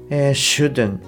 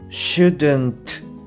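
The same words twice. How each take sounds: First: The final t sound is almost dropped. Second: The final t sound is clearly pronounced. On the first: "アポストロフィーt っていうのはもうほぼほぼ落ちます" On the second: "shouldn't ではなくて"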